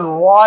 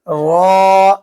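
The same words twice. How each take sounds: First: The lips round, adding a w-like sound. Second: The lips stay apart, with no w sound. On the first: The speaker calls it wrong. "ये होठों के किनारे ना मिले, ऐसे रॉ नहीं कहेंगे" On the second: The speaker calls it right. "वाव की आवाज ना आने पाए, ऐसे कहेंगे रॉ"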